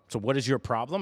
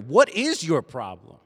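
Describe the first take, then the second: First: The question is asked in a calm, plain way. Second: The question is asked in a pointed, aggressive way. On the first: It asks which problem one is called to solve. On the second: It confronts the listener about a personal flaw.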